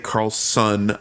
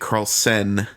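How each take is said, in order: First: The last syllable sounds like 'son'. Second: The last syllable sounds like 'sen'. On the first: The speaker calls it wrong. "I don't say Carlson" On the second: The speaker calls it right. "I say Carlsen"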